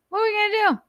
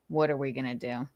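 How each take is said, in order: First: Very high-pitched silly question; squeaky mock voice. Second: Said in the usual way. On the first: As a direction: squeak it out much higher. Same question in two voices.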